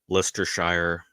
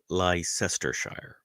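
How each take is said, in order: First: The name is said with syllables dropped. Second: Every written syllable of the name is pronounced. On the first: "it's probably Leicestershire, but that just seems like generations of people being lazy and shortening it" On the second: "I'm very literal when it comes to pronunciation, so I want to say Leicestershire"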